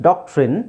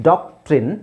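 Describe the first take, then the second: Both takes have the same delivery.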